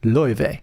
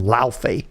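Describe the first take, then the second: First: The name is said in the Icelandic-style way. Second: The name is said in an English-style way. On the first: The speaker calls it right. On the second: The speaker calls it wrong.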